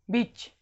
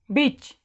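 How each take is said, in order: First: बीच with a short "i", as in bitch; short sound. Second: बीच with a long "ee", as in beach; long sound. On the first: Teacher gives the contrasting take, बीच with short "i". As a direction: make the vowel in बीच quick. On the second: Teacher models for students to repeat, बीच with long "ee". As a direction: draw out the vowel in बीच. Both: Shown as a demonstration. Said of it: "अब अपने से बोलो".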